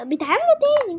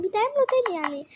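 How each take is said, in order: First: High, loud excited burst. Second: Said in the usual way. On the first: Real, not acted. Gamer excitedly telling viewers the items refill. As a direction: blurt it out thrilled.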